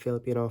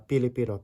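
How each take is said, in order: First: The word begins with an F sound. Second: The word begins with a P sound.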